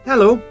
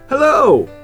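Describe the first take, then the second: First: The word is said at normal loudness. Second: The word is said much louder.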